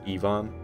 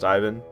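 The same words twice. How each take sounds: First: The name is said with a Croatian pronunciation. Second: The name is said with an English pronunciation. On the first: The speaker calls it right. "because he's Croatian, so they pronounce it Ivan" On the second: The speaker calls it wrong. "it's not pronounced Ivan"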